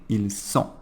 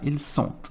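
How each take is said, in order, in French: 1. Sont se termine sans aucun t de liaison. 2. Un son t se lie à la fin de sont. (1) "Sempre ils sont. / eu não vou fazer essa liaison" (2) "Nunca ils sont"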